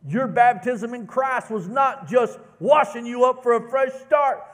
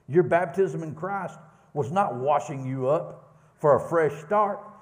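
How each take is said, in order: First: It is read with lively enthusiasm. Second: It is read calmly, with less energy.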